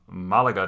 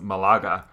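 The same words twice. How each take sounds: First: The stress is on the first syllable. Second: The stress is on the second syllable. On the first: The speaker calls it right. "the accent over the first A" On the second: The speaker calls it wrong. "you pronounced the town Malaga today as Malaga"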